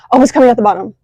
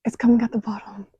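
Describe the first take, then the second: First: Louder, sudden burst of relief; excited exclamation. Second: Whispered, a bit quicker; awed whisper. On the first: Sees backflow smoke finally working, exclaims excitedly. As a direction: blurt it out as the smoke appears. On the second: Watching smoke pour down, whispering to herself in awe. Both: Real, not acted.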